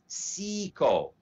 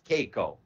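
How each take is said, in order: First: The word begins with an S sound. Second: The word begins with a hard K sound. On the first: The speaker calls it right. "It is actually pronounced as Seiko" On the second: The speaker calls it wrong. "it's not pronounced as Keiko"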